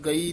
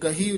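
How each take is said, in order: First: No h sound is heard in the middle. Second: An h sound is heard in the middle. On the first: The speaker calls it wrong. "ਚਰਨ ਗਈ ਨਹੀਂ ਕਹਿ ਦੇਣਾ" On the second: The speaker calls it right. "ਇਹ ਗਹੀ ਉਚਾਰਨ ਕਰਨਾ ਹੈ"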